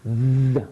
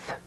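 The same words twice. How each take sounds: First: TH buzzed with the voice, as in them; tongue out, make TH vibrate; voiced th. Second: TH as pure air, as in thumb; tongue out, TH with no voice; unvoiced th. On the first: Teacher shows the one that vibrates, voiced TH. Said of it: "the one that vibrates, that uses your voice". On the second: Teacher shows the TH that's not voiced, voiceless TH. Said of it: "there's no voice sound". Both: Shown as a demonstration.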